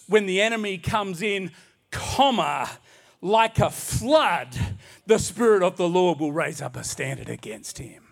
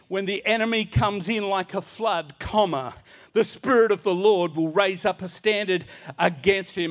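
First: The pause comes after 'comes in'. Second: The pause comes after 'like a flood'.

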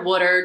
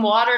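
First: The word is said in a Delco accent. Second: The word is said in a standard accent.

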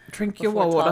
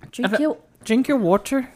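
First: It is said in the speaker's ordinary accent. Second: It is said in an Irish accent.

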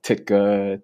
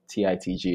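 First: The name is said as one word. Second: The name is spelled out letter by letter. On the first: The speaker calls it wrong. "people would like butcher it" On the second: The speaker calls it right. "it's an acronym"

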